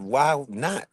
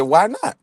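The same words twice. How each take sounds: First: Softer, teasing come-on under the breath; sly quiet invite. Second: Higher, playful invite; cheeky come-on. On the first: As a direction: tempt him quietly. Body's silent invitation, first telling. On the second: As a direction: tease him into it. Body's invitation retold, louder. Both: Retold or imitated.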